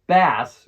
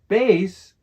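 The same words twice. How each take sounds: First: The word rhymes with grass. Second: The word does not rhyme with grass. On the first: A kind of fish. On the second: A low frequency sound.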